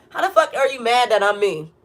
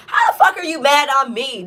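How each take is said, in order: First: Laughing disbelief. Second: Said in the usual way. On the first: Real, not acted. Laughing at people mad that she is herself. Repeats question, now laughing.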